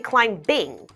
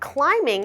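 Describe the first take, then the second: First: A B sound is heard after the M. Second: No B sound is heard after the M. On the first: The speaker calls it wrong. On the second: The speaker calls it right.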